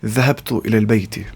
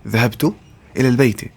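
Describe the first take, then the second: First: Rattled off fast, in one breath; fast model sentence; quick Arabic example. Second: Word by word. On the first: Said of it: "I will say". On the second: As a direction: split into two chunks with a pause. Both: Shown as a demonstration.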